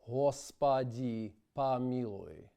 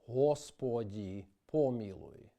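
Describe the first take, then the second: First: Unstressed O vowels are reduced toward an A sound. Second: Unstressed O vowels keep a full O sound. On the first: The speaker calls it wrong. "is incorrect because it reduces the unstressed O to A" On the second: The speaker calls it right. "The correct way is"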